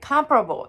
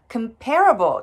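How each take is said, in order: First: The stress is on the first syllable. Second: The stress is on the second syllable.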